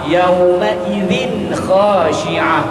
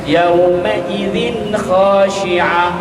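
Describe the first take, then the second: Both takes have the same delivery.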